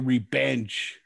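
It is said in a heavy Mexican accent.

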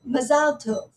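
It is said with an Israeli stress pattern. "an Israeli might say "mazal tov," so with the stress being one way"

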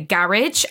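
The word is said in a British accent. "over in England, they say garage"

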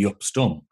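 The name is said the Dutch way.

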